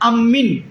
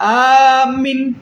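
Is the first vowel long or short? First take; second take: short; long. First: The first vowel is kept short. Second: The first vowel is drawn out long. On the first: "হামজাকে কসর করে পড়া হবে" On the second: "হামজাকে টেনে পড়া হবে"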